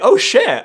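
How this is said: The voice sounds pleasantly surprised and upbeat. Something nice and interesting has happened. The speaker calls it right. "it was supposed to be"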